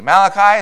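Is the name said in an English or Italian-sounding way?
English. The name is said in plain English. The speaker calls it right.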